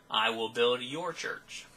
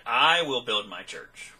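First: "your" stretched and emphasized, slow line; stress on YOUR. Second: "I" drawn out and emphasized, slow line; stress on I. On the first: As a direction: lean slowly on the word "your". Contrasts the wrong version. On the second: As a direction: lean slowly on the word "I". Contrasts whose church and who builds. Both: Shown as a demonstration.

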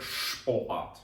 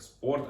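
First: Шпорт said with a clear sh before p; German sp as shp. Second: Said in the usual way. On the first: Shown as a demonstration. Teacher contrasts German reading: шпорт with sh sound. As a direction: read шпорт the German way, sh-p at the start. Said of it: "а в німецькій читається як шпорт". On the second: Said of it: "В українській читається як спорт".

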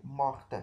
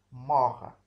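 First: "morte" with the final t sounded; feminine pronunciation. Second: Said in the usual way. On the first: Shown as a demonstration. Teacher gives the feminine form, "morte" with audible final t. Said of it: "on dit morte".

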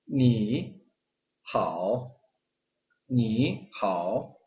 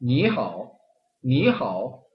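First: "니하오" very slow, both syllables dipped low; awkward word-by-word "니하오"; unnatural full third tones. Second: "니하오" with "니" rising, "하오" dipping; smooth "니" up then "하오" low; fluent second-plus-third "니하오"; natural tone sandhi. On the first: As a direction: drag each syllable of "니하오" down and up. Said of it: "삼성 그대로 다 발음을 하면 어색합니다". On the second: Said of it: "이성, 삼성을 들어볼게요". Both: Shown as a demonstration.

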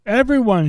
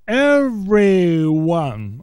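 First: Said in the usual way. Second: "everyone" drawn out very slowly, syllable by syllable; stress on everyone. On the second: Shown as a demonstration. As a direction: stretch "everyone" right out for heavy emphasis. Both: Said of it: "underline that word".

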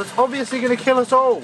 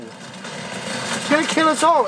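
First: Hurried. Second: Slow, drawn-out, higher doom; slow mock-ominous repeat. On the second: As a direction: drag it out like a prophecy of doom. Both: Real, not acted.

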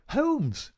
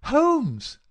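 First: High, sharp call to wake a sleeper; insistent cry. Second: Very loud, high shout to wake a sleeper; more insistent cry. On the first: Visitor tries to wake the sick man, crying out insistently. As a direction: call his name in a raised, high voice. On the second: Visitor rousing an unresponsive sick man, shouting insistently. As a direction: shout his name hard and high. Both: A narrator's reading. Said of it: "the insistent tone of one who awakens a sleeper".

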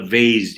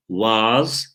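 First: "vase" said with an ay vowel, like "veys"; vase as "veyz". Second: "was" said with a long open ah, rhyming with cars; vase as "vahz". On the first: Teacher gives the other reading of vase, "vase" as "veyz". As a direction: say "vase" to rhyme with days. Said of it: "Amerikan ve British English'e göre değişiyor". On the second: Teacher gives one of two readings of vase, "was" as "vahz". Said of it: "diye iki türlü okunuyor". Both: Shown as a demonstration.

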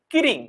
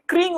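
First: কিরিং with an extra i splitting the kr cluster; colloquial mispronunciation. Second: Said in the usual way. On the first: Shown as a demonstration. Teacher shows how people say কিরিং for the ring sound. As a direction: say কি-রিং in two syllables. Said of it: "আমরা বলি হচ্ছে". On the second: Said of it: "ক্রিং উচ্চারণ করতে পারি না".

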